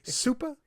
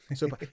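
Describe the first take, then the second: First: The first vowel sounds like the one in 'soup'. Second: The first vowel sounds like the one in 'so'. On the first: "I think it's about soup. So I guess Supa?" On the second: "I say Sopa"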